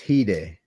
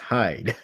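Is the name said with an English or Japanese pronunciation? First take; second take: Japanese; English. First: It is said with a Japanese pronunciation. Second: It is said with an English pronunciation. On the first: "his name is Hide" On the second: "if you pronounce it in English"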